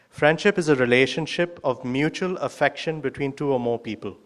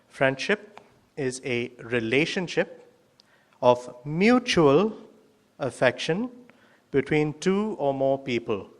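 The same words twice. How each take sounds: First: It is read at a normal speed. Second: It is read slowly.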